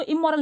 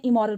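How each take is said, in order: First: इमोरल with a long held double m, imm-moral; wrong pronunciation. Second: इमोरल with a short m, i-mor-al, falling at the end; correct pronunciation. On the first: Teacher shows viewers the wrong way to say इमोरल. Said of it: "इसको इमोरल नहीं पढ़ते हैं". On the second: Teacher gives viewers the correct इमोरल to copy. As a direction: say इमोरल the right way, crisp and short. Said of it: "इमोरल पढ़ते हैं". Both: Shown as a demonstration.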